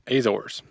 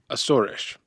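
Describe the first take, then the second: First: The name is said with American English pronunciation. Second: The name is said with native Portuguese pronunciation. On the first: "The American way of saying it is" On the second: "the correct native pronunciation is"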